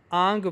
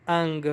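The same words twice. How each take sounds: First: آنگ with a long open aa before ng; long aa sound. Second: انگ with a short vowel before ng; short alif sound. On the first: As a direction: stretch the vowel of آنگ to aa. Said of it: "وہ المد آ نون گاف". (آنگ، الف مد کی لمبی آواز کے ساتھ) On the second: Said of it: "E N G الف نون گاف پڑھا جاتا". (انگ، چھوٹے الف کی آواز کے ساتھ) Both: Shown as a demonstration.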